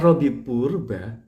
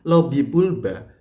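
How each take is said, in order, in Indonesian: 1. Nama itu diucapkan dengan bunyi R. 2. Nama itu diucapkan dengan bunyi L. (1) "itu bukan lobby purba" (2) "bunyi L atau lobby pulba"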